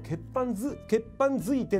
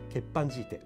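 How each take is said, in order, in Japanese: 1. 真ん中は別の'zui'の母音の連続です。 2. 真ん中は長い'jii'の母音です。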